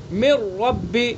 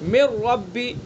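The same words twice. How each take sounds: Both takes have the same delivery.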